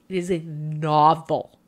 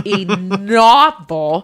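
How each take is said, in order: First: Said in the usual way. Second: "novel" stretched out slowly, louder, through a laugh; laughing stress on novel. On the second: Real, not acted. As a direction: lean into "novel" while laughing in disbelief.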